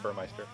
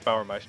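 First: The first syllable sounds like 'burr'. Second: The first syllable sounds like 'bower'. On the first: The speaker calls it wrong. "not Burmeister" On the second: The speaker calls it right. "I guess it's Bauermeister"

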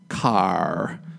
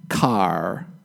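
First: The final R sound is strongly pronounced. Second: The final R sound is strongly pronounced.

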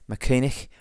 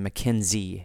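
First: The name has no z sound in it. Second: The name has a z sound in it. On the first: This is closer to the original Gaelic name. The speaker calls it right. "closer to the Gaelic sound of the word" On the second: This comes from misreading an old letter as z. The speaker calls it wrong. "they're inserting that Z sound in there"

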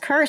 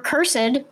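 First: The word is said the plain, everyday way. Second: The word is said a fancy, old-fashioned way.

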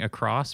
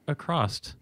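First: The word ends in a plain s sound. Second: The word ends with an added t sound. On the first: The speaker calls it right. "instead of saying across" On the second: The speaker calls it wrong. "people will say across"

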